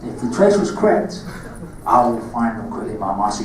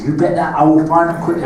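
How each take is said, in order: First: Put-on Cockney accent, lower at the end; menacing Cockney Darth Maul, lower. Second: Said in the usual way. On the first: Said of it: "Darth Maul lines in your Cockney accent".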